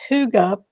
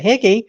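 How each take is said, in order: First: The word is said like 'hooga'. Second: The word is said like 'higgy'. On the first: The speaker calls it right. "but no, it's pronounced Huga" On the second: The speaker calls it wrong. "which we might think is the term"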